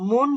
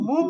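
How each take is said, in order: First: The syllable ends with an n sound. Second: The syllable ends with an m sound. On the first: The speaker calls it wrong. "মুন না বলে" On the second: The speaker calls it right. "মুম বলতে হবে"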